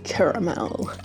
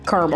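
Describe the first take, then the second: First: Caramel is said in a British-style pronunciation. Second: Caramel is said in an American-style pronunciation. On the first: It is the fancier, higher quality kind. "This is caramel" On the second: It is the ordinary kind found in the US. "Whereas the U S is definitely caramel"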